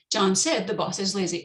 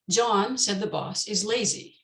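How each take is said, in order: First: John said, the boss is lazy, with said prominent and a break after it; contrasting demo reading with the weight on said; second reading. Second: John said the boss is lazy, John stressed, falling at the end; first reading. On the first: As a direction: split it into two thought groups. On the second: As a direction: read it as one group with the weight on John. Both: Shown as a demonstration.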